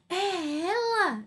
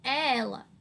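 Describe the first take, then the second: First: It is said as a surprised exclamation. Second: It is said as a calm, certain statement. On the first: The speaker did not expect it to be her. "Mas uma surpresa" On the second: The speaker is sure who it is. "é uma certeza"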